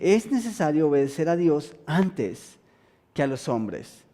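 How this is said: It is said as a statement, falling.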